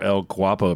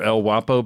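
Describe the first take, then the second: First: The G sound is pronounced before the W. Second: The G sound is silent, starting with W. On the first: The speaker calls it right. "it's pronounced Guapo" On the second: The speaker calls it wrong. "I don't think G is ever silent in Spanish"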